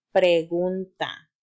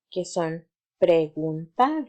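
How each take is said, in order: First: Pregunta said slowly and clearly, every syllable shaped; slow model word. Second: Said in the usual way. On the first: Shown as a demonstration. Teacher models pregunta for children to repeat, slow and clear. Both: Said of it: "repite conmigo".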